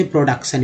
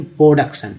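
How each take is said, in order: First: "प्रोडक्शन" with a clear R after P; full PRO at the start of "प्रोडक्शन"; common pronunciation. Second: "प्रोडक्शन" with the R glided over; first syllable of "प्रोडक्शन" nearly without R; slurred R. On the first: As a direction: say "प्रोडक्शन" as pro-duk-san, R sounded. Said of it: "लोग इसे प्रोडक्शन ही बोलते हैं". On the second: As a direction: slur the R in "प्रोडक्शन", almost po-duk-san. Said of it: "आर को उच्चारण घसीट करना". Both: Shown as a demonstration.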